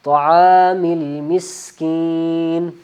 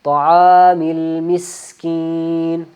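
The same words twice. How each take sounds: The two takes are said the same way.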